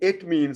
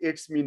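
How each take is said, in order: First: The s sound comes right after 'mean'. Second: The s sound comes right after 'it'. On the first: The speaker calls it right. "ये इट मीन्स होता है" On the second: The speaker calls it wrong. "याद रखे ये इट्स मीन नहीं होता"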